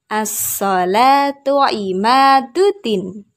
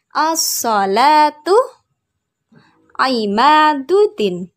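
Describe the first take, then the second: First: The phrase is said joined at normal speed. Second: The phrase is said slowly and carefully. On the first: "Sekarang kita gabung" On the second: "pelan-pelan ya"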